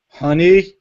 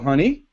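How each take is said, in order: First: It sounds annoyed and displeased. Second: It sounds relaxed and ordinary.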